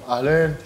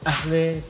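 First: It is said in a rougher, coarser style. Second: It is said in the Baalbek and Tripoli style. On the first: The speaker is a rougher kind of Lebanese. "Libanesen, die sind so ein bisschen grober, die sagen so Ahlen" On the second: The speaker comes from Baalbek or Tripoli. "die Leute aus Baalbek oder Trablus, die sagen so immer so Ahle"

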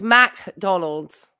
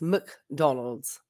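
First: The first syllable has a full 'a' vowel. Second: The first syllable has a reduced, weak vowel. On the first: The speaker calls it wrong. "the way you're pronouncing it, it would be M-A-C" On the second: The speaker calls it right. "Rather than the M-C, which is McDonald's"

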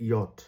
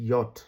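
The two takes are said the same way.

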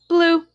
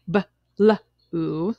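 First: The b and l sounds merge into one. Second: The b and l sounds are pulled apart. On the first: The speaker calls it right. "we say blue" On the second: The speaker calls it wrong. "Instead of saying blue"

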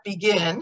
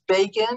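First: It is pronounced like the common verb. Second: It is pronounced like the surname. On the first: It means to start something. The speaker calls it wrong. "That's not begin" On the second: It names the prime minister of Israel. The speaker calls it right. "You have to pronounce it differently. It's Begin"

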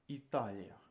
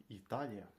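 Both takes have the same delivery.

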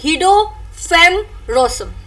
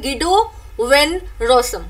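First: The name is said with a Dutch pronunciation. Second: The name is said with an English pronunciation. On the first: "agar aapko Dutch mein isko pronounce karna hai" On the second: "agar aap English mein pronunciation karenge"

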